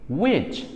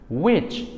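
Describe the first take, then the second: Both takes have the same delivery.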